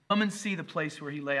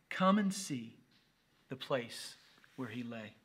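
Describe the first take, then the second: First: Said in the usual way. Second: Slow, pausing, fading away at the end; solemn reading. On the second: Acted. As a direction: let the invitation drift into hush. Scripture line, then repeated plainly.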